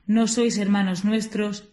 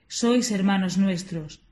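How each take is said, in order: First: Slow, with 'No' lengthened and leaned on; stress on no. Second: Slow, with 'Sois' stressed as an affirmation; stress on sois. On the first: Preacher quotes the opponents' denial, leaning slowly on 'No'. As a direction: drag out the 'No' in 'No sois hermanos nuestros'. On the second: Preacher answers the denial, stressing 'Sois' slowly. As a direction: lean slowly on 'Sois' in 'Sois hermanos nuestros'. Contrasting quoted phrases. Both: Shown as a demonstration.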